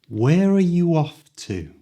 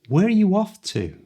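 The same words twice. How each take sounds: First: The question is spoken a little faster. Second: The question is spoken at full natural speed. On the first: "this time a little faster" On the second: "at the speed native people speak"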